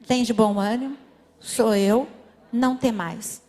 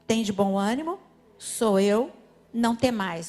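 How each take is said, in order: First: Verse repeated with more force, louder. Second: Said in the usual way. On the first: Shown as a demonstration. Pastor leading the church in the verse, louder. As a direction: say it again, louder and firmer. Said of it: "Vamos repetir?". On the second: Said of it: "Vamos falar todo mundo junto?".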